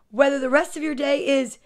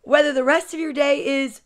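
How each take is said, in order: Both takes have the same delivery.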